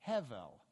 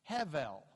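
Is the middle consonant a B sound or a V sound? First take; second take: V; V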